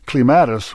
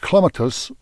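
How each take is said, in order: First: It uses the American pronunciation of the word. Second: It uses the British pronunciation of the word. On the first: "which Americans and Hoosiers say" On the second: "which the Brits and Janine Wishy say"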